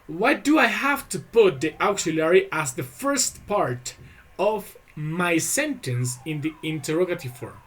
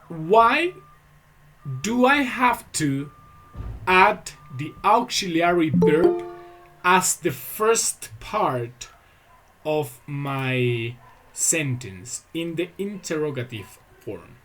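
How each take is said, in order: First: It is said at normal speed. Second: It is said more slowly.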